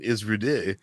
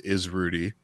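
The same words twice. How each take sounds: First: It is said in a French accent. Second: It is said in a plain, ordinary accent.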